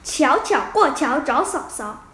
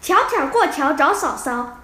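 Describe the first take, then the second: No difference in how they are said.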